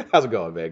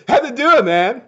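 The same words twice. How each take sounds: First: Said in the usual way. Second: Goofy greeting. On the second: Pretend. Playfully mangled greeting to a viewer.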